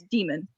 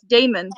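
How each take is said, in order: First: The name sounds like demon, with a long E. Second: The name sounds like Damon, with a long A. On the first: This is the reading used by Dungeons and Dragons players. "if you play Dungeons and Dragons, then it's Demon" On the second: This is the usual reading of the name. "this probably is pronounced as Damon"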